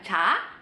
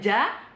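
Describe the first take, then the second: First: The consonant sounds like a plain ch. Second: The consonant sounds like a full voiced j. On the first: "bukan ca" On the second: "Bukan ja"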